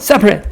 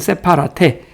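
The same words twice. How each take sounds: First: It is said with its natural English pronunciation. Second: It is read out syllable by syllable as spelled. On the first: "그렇지만 발음은 separate" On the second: "스페링은 separate"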